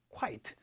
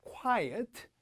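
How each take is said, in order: First: Quiet as KWAIT, low and softer; one falling syllable, quiet said as quite. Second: Quiet as KWAI-et, rising tune; two syllables on Quiet, ending up. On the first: Teacher leading students' repeat, quiet said as quite. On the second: Teacher leading students' repeat, Quiet as KWAI-et. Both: Shown as a demonstration. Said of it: "여러분 시작".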